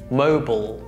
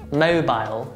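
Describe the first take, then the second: First: It is said with American pronunciation. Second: It is said with British pronunciation. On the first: "American pronunciation" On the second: "British pronunciation"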